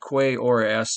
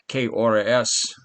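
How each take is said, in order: First: The first word sounds like 'kway' with the vowels. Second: The first word sounds like a bare 'keh'. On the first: The speaker calls it wrong. "he said Q U E" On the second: The speaker calls it right. "you don't say the the U E like you do in English. You, it's K"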